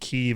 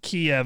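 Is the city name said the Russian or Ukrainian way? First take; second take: Ukrainian; Russian. First: The name is said in the Ukrainian way. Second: The name is said in the Russian way. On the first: "Kiev is the Ukrainian pronunciation" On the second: "Kiev is like the Russian pronunciation for it"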